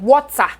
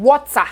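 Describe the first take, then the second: First: The word is said in a Nigerian accent. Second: The word is said in a Nigerian accent.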